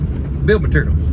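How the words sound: The first word is clipped in a Southern drawl. This is the speaker's natural way of saying it. The speaker calls it wrong. "naturally, I'm wanting to say build materials"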